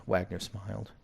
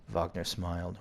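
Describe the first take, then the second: First: Wagner with a W and short a; English-style Wagner. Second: Wagner with a V sound at the start; German-style Wagner. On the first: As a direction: say "Wagner" as WAG-ner. Corrects to English name pronunciation. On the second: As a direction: say "Wagner" as VAHG-ner. German, then English name pronunciation. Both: Shown as a demonstration.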